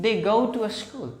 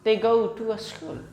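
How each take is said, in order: The two takes are said the same way.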